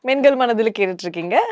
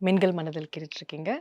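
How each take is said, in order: First: It is said in a plain radio-host tone. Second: It is said in a soft, loving tone. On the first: "நீங்க ரேடியோல எப்படி பேசுவீங்களோ அதே மாதிரி பேசுங்க" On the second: "ஒரு love டோன்ல பேசுவாங்களா"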